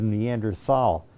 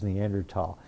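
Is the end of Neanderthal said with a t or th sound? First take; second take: th sound; t sound. First: The end is said with a th sound. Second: The end is said with a plain t sound. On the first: "Let's start pronouncing it. So they changed the pronunciation to Neanderthal" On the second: "you don't pronounce the H. So this is pronounced Neanderthal"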